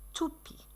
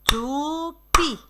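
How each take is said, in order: First: Said in the usual way. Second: "toupie" as two long, separate syllables, tou, pie; scanned syllables. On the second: Shown as a demonstration. Teacher demonstrating "toupie" for children to scan, syllable by syllable. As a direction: draw out each syllable of "toupie". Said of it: "Scandez toupie".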